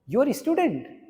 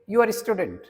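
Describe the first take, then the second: First: The voice rises at the end. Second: The voice falls at the end. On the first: It asks whether the listener is a student. "then it is a question" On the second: It states that the listener is a student. "ये question नहीं है"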